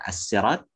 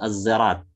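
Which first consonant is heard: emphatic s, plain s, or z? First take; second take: plain s; z. First: The word begins with a plain s sound. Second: The word begins with a z sound. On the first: "dengan sin" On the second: "dengan zai"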